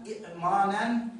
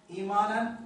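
First: إئمانا slow, with two glottal stops; original form. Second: إيمانا said louder with a long i; correct form. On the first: A teacher contrasting the original إئمانا. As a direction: sound out إئمانا with both hamzas. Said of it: "الهمزة الثانية الساكنة". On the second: A teacher giving the correct إيمانا. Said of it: "إي-، آه". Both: Shown as a demonstration.

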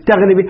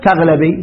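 First: تغلبي with an i after the l, "taghlibi"; kasra on the lam. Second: تغلبي with an a after the l, "taghlabi"; fatha on the lam. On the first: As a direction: say تغلبي keeping the lam's short i vowel. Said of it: "الأفصح ماذا نقول؟". (تغلبي بكسر اللام) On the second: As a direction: open the lam of تغلبي to a short a. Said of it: "لكن يجوز ماذا؟". (تغلبي بفتح اللام) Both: Shown as a demonstration.

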